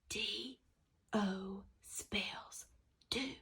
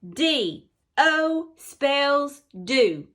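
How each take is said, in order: First: The phrase is said softly. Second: The phrase is said loudly. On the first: "Let's say it soft" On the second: "Let's say it loud"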